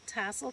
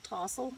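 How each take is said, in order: First: The first vowel sounds like the one in cat. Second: The first vowel sounds like the one in cot. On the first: This is the usual way to say it. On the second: This is how some older relatives say it.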